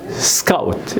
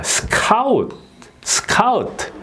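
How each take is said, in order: First: "스카우트" as English scout, sk held together; correct pronunciation. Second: "스카우트" as seu-KAU-teu, k moved onto the second beat; mislearned "스카우트" with separated s and jumping pitch; wrong mora-style accent. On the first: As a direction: say "스카우트" in one beat with a tight sk. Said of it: "이렇게 돼야 되는데". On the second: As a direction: say "스카우트" split after s, punching KA. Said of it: "이렇게 발음을 한 거예요". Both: Shown as a demonstration.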